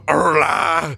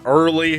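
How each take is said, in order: First: The name is said in a Southern accent. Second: The name is said in a plain accent.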